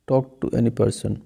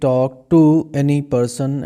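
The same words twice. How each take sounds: First: The word 'to' is said short and reduced. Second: The word 'to' is said with a long vowel. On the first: The speaker calls it right. "अब टब बड़े मात्रा टू मत बोलिए" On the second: The speaker calls it wrong. "ऐसे नहीं बोलना है।"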